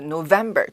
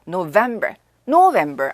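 First: The stress is on the second syllable. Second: The stress is on the first syllable. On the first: The speaker calls it right. "두 번째로 올린다든가" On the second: The speaker calls it wrong. "아니고"

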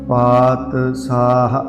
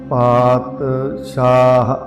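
The two takes are said the same way.

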